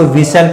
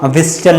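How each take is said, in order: First: "व्हिसल" as VIS-ul, no t; "व्हिसल" with s straight into l; silent t. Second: "व्हिसल" as VIS-tul, t sounded; "व्हिसल" with a hard t after s; wrong pronunciation. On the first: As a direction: say "व्हिसल" leaving the t out. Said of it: "इसको व्हिसल पढ़ते हैं". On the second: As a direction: voice a t inside "व्हिसल". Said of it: "व्हिसल नहीं पढ़ते हैं". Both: Shown as a demonstration.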